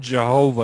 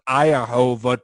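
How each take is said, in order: First: The name begins with a J sound. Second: The name begins with a Y sound. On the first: The speaker calls it wrong. "it's not Jehovah" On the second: The speaker calls it right. "It's pronounced Iahova"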